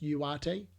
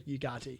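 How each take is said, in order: First: The name is said without a G sound. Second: The name is said with a G sound. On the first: "actually pronounced Uarte, apparently... It's a silent G" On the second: "apparently it's okay to go Ugarte"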